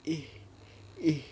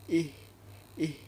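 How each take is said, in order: The two takes are said the same way.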